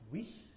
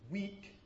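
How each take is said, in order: First: The final k is a rough fricative. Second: The final k is a clean stop. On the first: "it's ch" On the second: "rather than saying"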